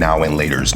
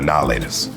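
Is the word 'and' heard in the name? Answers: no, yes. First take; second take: yes; no. First: The word and is said between the words. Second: The word and is left out entirely. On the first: The speaker calls it wrong. "we're not saying now and laters" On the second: The speaker calls it right. "they're now laters"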